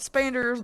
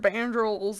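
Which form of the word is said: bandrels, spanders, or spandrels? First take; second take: spanders; bandrels. First: It starts with 'sp' and ends in 'ders'. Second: It starts with 'b' and ends in 'drels'. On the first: "I have been saying that wrong" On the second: "I've called it all sorts of crazy stuff"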